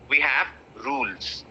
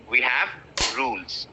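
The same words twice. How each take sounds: The two takes are said the same way.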